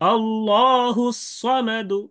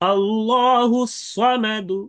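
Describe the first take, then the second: Both takes have the same delivery.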